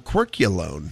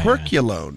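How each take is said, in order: First: The Y sound ends the first word. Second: The Y sound starts the second word.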